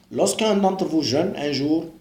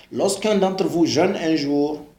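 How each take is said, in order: The two takes are said the same way.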